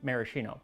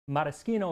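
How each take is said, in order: First: The word is said with anglicized pronunciation. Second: The word is said with Italian pronunciation. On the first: It is the casual everyday form. "so I say maraschino" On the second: It sounds pretentious in casual use. "is the proper Italian"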